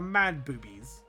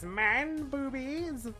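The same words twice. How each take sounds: First: It is said in the speaker's normal voice. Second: It is said in a put-on character voice.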